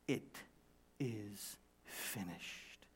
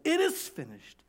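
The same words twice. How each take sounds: First: Very slow, low and hushed; solemn finality. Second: Said in the usual way. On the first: Acted. Preacher stressing what Jesus said, slow solemn hush. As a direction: draw out each word, softly final.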